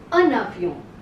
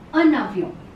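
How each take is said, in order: First: An n sound links the two words together. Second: An n sound links the two words together.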